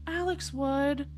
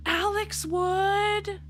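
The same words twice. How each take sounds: First: Said in the usual way. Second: Drawn-out high line. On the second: Acted. Dramatic line then repeated.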